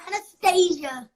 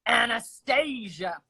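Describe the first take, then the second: First: Anastasia echoed as "na-stay-zha"; copying her name. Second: Anastasia with a zh, "a-na-stay-zha"; Anastasia, slow and proud; own way of saying it. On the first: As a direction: Anastasia repeated back slowly. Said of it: "There we go". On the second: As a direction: Anastasia said slowly, clearly. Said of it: "let's hear it again". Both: Shown as a demonstration.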